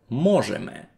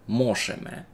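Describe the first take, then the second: First: The middle consonant is a voiced zh sound. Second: The middle consonant is a voiceless sh sound. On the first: The speaker calls it right. "у корінньові цього слова дзвонкий звук «ж»" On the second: The speaker calls it wrong. "Ніхто не каже мошеме"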